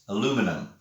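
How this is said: It is said in an American accent. "In the States"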